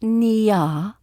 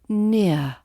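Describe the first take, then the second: First: The vowel's second part is exaggerated and drawn out. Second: The vowel glides smoothly into a soft ending. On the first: The speaker calls it wrong. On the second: The speaker calls it right. "Keep it smooth and connected"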